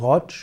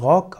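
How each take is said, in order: First: The word ends with a tsch sound. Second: The word ends with a hard k sound. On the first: "als Rotsch" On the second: "Er kann ausgesprochen werden als Rock"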